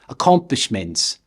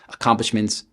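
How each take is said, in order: First: The unstressed syllables are lingered on too. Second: One syllable carries a single main stress. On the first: "They tend to linger on unstressed syllables" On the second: "An American would produce their standard single stress pattern"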